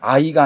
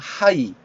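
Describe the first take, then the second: First: It begins directly with the vowel. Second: It begins with an h sound. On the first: The speaker calls it wrong. "아이가 아니라" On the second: The speaker calls it right.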